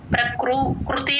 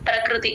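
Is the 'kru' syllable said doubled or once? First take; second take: doubled; once. First: The word is broken, with 'kru' said twice. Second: The word flows smoothly with 'kru' said once. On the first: The speaker calls it wrong. "ప్రకృ కృతి అనకూడదు" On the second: The speaker calls it right. "ప్రకృతి అంతే"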